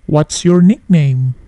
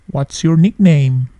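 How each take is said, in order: Both takes have the same delivery.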